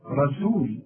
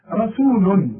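First: رسول said softly with a light seen; correct reading. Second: رسول said louder and higher with a heavy ra; emphatic model. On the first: Teacher modelling the word quietly. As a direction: start رسول from the ra, keep it light. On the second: Teacher repeating the word firmly. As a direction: punch the ra of رسول. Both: Shown as a demonstration. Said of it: "هات بقى من الأول الراء".

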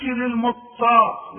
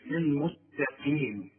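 First: Loud, raised للمتقى with heavy final vowel; wrong heavy ending. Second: Slow, syllable-by-syllable للمتقين; light taa. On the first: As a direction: exaggerate the mistaken heavy "qaa" in للمتقى. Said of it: "ما تقولش للمتقى". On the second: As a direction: sound out للمتقين with a light t and clear "qee". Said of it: "والهاء قي مش قي". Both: Shown as a demonstration.

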